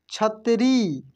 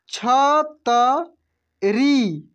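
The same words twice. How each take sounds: First: Said in the usual way. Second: छतरी stretched very slowly, each syllable separate. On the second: Shown as a demonstration. (छतरी को धीरे धीरे खींचकर बोलिए) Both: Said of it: "कैसे पढ़ेंगे?".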